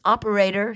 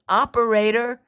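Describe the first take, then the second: First: Calling for the operator down the phone. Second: Operator shouted high and loud; urgent shout. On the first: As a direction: call Operator clearly and raised. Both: Acted. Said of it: "she called".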